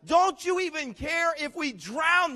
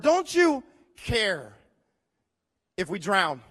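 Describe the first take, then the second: First: Higher, slow, mildly pleading "Don't you even care"; pleading disciple. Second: "you" drawn out slowly with a falling pitch, then "drown" clipped short; stress on you. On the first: Disciples plead with the sleeping Jesus, higher and slow. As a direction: beg like a frightened disciple. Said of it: "How can you sleep at a time like that?". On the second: Disciples wake Jesus in the storm, leaning hard on "you". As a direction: lean hard on "you" in "Don't you care". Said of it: "Everybody say that word". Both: Acted.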